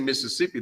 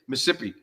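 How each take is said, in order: First: It is said in the usual standard way. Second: It is said in the local regional way. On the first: "They don't even say Mississippi" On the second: "They say Mississippi"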